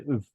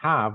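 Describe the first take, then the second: First: The word is said in its reduced, weak form. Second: The word is said in its full, strong form. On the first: The speaker calls it right. "the have is weak" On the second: The speaker calls it wrong. "have is the strong form"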